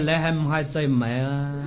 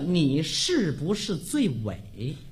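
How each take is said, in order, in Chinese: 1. 这句话是广东话式发音。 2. 这句话是普通话发音。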